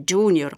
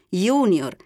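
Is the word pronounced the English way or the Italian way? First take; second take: English; Italian. First: It is pronounced with English-style sounds. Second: It is pronounced with Italian, Latin-style sounds. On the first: The speaker calls it wrong. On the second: The speaker calls it right.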